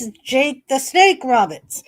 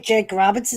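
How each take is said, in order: First: Jake the Snake Roberts with Snake hit hardest, falling at the end; stress on Snake. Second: Said in the usual way. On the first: Retold or imitated. Streamer correcting chat on the wrestler's name, stress on Snake. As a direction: lean into Snake. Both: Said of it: "It's not the snake".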